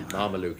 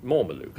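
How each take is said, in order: First: Marmaluke with mar as in marmalade; corrected pronunciation. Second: Mormaluke with mor as in more; wrong pronunciation. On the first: Host corrects himself with a laugh, Marmaluke. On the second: Host slips, naming the panel's choice Mormaluke. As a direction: say Mormaluke, mor-ma-luke, the slip version. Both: Real, not acted. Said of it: "I beg your pardon".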